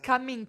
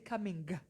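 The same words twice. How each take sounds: First: The word ends without an audible G sound. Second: The word ends with an audible G sound. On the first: The speaker calls it wrong. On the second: The speaker calls it right. "if I'm going to say the G, I'll say coming"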